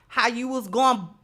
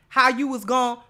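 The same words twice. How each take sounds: The two takes are said the same way.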